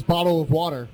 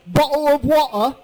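First: Said in the usual way. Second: Imitating a son's higher-pitched English accent. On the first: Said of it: "an English accent". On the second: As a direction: put on an English accent, dropping the T's. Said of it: "how's my English accent?".

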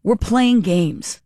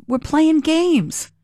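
First: Slow, drawn-out playing games; dry sarcasm. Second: Slow, much higher, mocking sing-song; sneering slow we're playing games; sarcastic drawn-out games. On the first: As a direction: drag it out with a dry edge. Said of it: "Sounds like". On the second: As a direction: stretch it out mockingly, pitch way up. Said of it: "That's my take". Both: Real, not acted.

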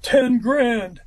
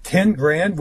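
First: A hint of gruff, flat price demand. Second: Mild disbelieving question, rising; incredulous. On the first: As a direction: lightly imitate his gruff voice. Jimmy names his price. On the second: Retold or imitated. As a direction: echo the price in mild disbelief. Speaker repeats price in disbelief.

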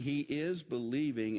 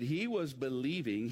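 First: "is" leaned on firmly; stress on IS. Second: Weight on "was"; stress on WAS. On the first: Preacher explaining Lazarus still believes, stress on "is". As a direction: hit "is" to correct the tense. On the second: Preacher explaining Lazarus's faith, stress on "was". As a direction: lean on "was" to set up a contrast. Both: Shown as a demonstration. Contrasts past with present believing.

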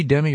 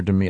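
First: "Demi" as DEM-ee; first-syllable stress. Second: "Demi" as duh-MEE; second-syllable stress. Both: Shown as a demonstration. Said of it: "is she Demi or Demi".

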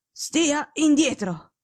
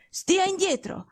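First: A slow, firm, dragged-out order; a sick detective repeating his firm warning; slow imperious command. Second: Sharp, high, imperious order to stay back; a commanding invalid warning his friend off; curt command. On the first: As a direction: lay down the law word by word. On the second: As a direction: snap him away from the bed. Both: Acted. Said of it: "tono secco e imperioso".

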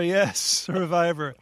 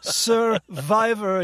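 First: Said in the usual way. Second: Slow, loud royal pronouncement; regal voice. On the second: Acted. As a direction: proclaim the word like a king. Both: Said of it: "this regal voice".

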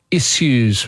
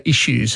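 First: "issues" with a heavy hissed S, "iss-yoos". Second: "issues" with a sh, "ishoos"; sh sound. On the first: Retold or imitated. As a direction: say "issues" with S, not sh. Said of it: "with a heavy S". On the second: Shown as a demonstration. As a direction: say "issues" with sh replacing S. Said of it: "We put a sh instead of s".

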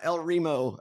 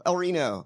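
First: "El Remo" with an M in the last syllable; El Remo mispronounced. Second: "El Reno" said ree-no, with an N. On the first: Cohost playfully toying with a town's name, mispronounced as El Remo. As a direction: say "El Remo", ree-mo, in place of Reno. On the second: Cohost playfully toying with a town's name, El Reno with N. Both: Pretend. Mock alternating two name pronunciations.

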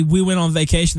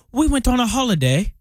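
First: Said in the usual way. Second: Higher, hammed-up British accent on holiday; a deliberately bad British accent for holiday; a mock British accent, on purpose badly done; terrible British accent. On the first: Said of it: "They don't say". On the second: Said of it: "That was a terrible British accent".

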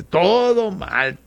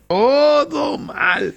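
First: Drawn-out, exaggerated complaint; slow, hammed-up grumble; mock lament. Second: High, very drawn-out comic cry; stretched, shouted lament; mock wail. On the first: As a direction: stretch the words in comic dismay. Mock lament over local teams losing. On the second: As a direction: wail it out in hammed-up despair. Louder repeat of the mock lament.

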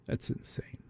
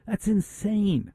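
First: Hushed, voiceless aside; barely audible, incredulous whisper; whispered disbelief. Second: High, slow, softer exclamation; incredulous, pitched way up and softened; high-pitched disbelief. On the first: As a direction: whisper it as if stunned by the rules. Host closes rant in disbelief. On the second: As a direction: draw it out high in exasperated disbelief. Host exasperated at military rules. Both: Real, not acted.

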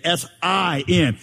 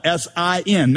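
First: S I N with the "I" drawn out big; heavy, lengthened stress on the "I" in S I N; big middle I. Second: Said in the usual way. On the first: Shown as a demonstration. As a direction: spell S I N slowly, stretching the letter I. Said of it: "Make the middle letter really big". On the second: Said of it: "simply in how it's spelled".

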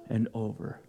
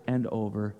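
Both takes have the same delivery.

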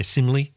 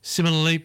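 First: Simile squashed to SIM-lee; common slurred pronunciation. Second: Similarly with all four syllables; full correct pronunciation. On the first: Host showing what people say, simile as SIM-lee. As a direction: say simile quickly in two syllables. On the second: Host giving the full word, Similarly in four syllables. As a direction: say Similarly as SIM-i-lar-ly. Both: Shown as a demonstration. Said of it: "a lot of people just say simile".

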